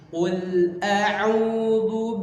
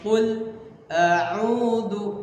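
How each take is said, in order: First: The two words run on without any stop. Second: There is a short stop between the two words. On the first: The speaker calls it right. "ulang lagi" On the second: The speaker calls it wrong. "tidak dibaca saktah, ... ini salah ya"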